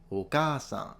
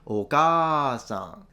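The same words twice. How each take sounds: First: The long vowel is held a moderate length. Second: The long vowel is stretched out far too long. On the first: The speaker calls it right. "they do say oba-san or oka-san" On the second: The speaker calls it wrong. "but they don't say oka-san"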